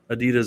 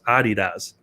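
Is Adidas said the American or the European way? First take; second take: American; European. First: The name is said the American way. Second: The name is said the European way. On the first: The speaker calls it wrong. "I'm still gonna say it that way because Adidas just sounds cooler" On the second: The speaker calls it right. "it's actually pronounced Adidas"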